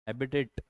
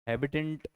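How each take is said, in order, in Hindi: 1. अंतिम t से पहले n की आवाज़ नहीं आती। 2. अंतिम t से पहले n की आवाज़ आती है।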